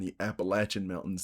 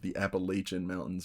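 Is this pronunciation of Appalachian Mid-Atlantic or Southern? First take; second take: Southern; Mid-Atlantic. First: Appalachian has the Southern regional pronunciation. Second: Appalachian has the Mid-Atlantic regional pronunciation. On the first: "That's more of a southern accent in there" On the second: "in the mid Atlantic area, Pennsylvania, Northern Virginia, that's what it's called"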